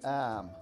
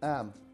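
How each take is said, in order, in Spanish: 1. Se dice más despacio y alargada. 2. Se dice a velocidad normal.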